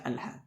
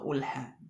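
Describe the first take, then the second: First: The word begins with an a vowel. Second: The word begins with a u vowel. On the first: The speaker calls it right. "dibaca alha dengan fathah" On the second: The speaker calls it wrong. "atau ulha"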